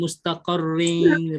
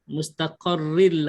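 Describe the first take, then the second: First: The word ends with a nasal ng sound. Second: The word ends with an l sound. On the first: The speaker calls it wrong. "Dia tak ada bunyi mustaqarring, ring tak ada" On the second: The speaker calls it right. "R I L L je"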